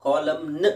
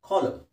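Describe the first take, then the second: First: ಕಾಲಮ್ ನ್ with the n wrongly sounded; a deliberately wrong ಕಾಲಮ್ ನ್, final n spoken; wrong pronunciation. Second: ಕಾಲಮ್ ending on m, silent n; ಕಾಲಮ್ said kolam with no n; pron. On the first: Teacher shows the wrong column with n. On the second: Teacher gives the correct column with silent n. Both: Shown as a demonstration. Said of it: "ಎನ್ silent ಆಗಿರುತ್ತೆ ಲಾಸ್ಟಿಗೆ".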